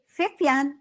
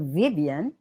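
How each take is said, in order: First: The name starts with an F sound. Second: The name starts with a V sound. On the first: The name is given a German pronunciation. "so with an F" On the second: The name keeps its original pronunciation. "we retain the original pronunciation"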